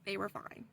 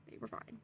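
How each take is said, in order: First: Said in the usual way. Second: They were fine whispered, voiceless. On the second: Real, not acted.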